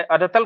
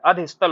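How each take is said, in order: First: अधतल without the स sound; wrong form अधतल. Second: अधस्तल with स before तल; correct form अधस्तल. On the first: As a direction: say अधतल, dropping the स before तल. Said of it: "अधतल कुछ नहीं होता है". (अधतल, बीच के स के बिना) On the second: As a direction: sound the स in अधस्तल. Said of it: "क्या होता है, अधस्तल होता है". (अधस्तल, तल से पहले स बोलकर) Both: Shown as a demonstration.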